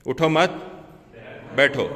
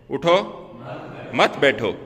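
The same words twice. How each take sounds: First: "उठो मत" as one phrase, a pause, then "बैठो"; pause after मत. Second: "उठो" alone, a pause, then lower "मत बैठो"; pause after उठो. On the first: Teacher shows the meaning becoming different, pause after मत. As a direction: keep मत with उठो, break before बैठो. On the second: Teacher contrasts two readings of one sentence, pause after उठो. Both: Shown as a demonstration. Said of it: "तो इसका मफहूम कुछ और हो जाता है".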